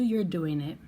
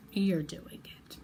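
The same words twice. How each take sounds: First: Said in the usual way. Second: Slow, emphatic whisper; drawn-out whispered affirmation. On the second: Real, not acted. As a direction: whisper it slowly, with conviction. Repeats the words for intimate emphasis.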